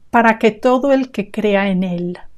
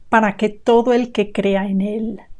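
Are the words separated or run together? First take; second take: run together; run together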